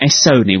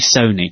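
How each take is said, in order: First: A separate letter S comes before Sony. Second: It is said as the single word Sony. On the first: The speaker calls it wrong. "That's what I want, S-Sony" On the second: The speaker calls it right. "which is actually Sony"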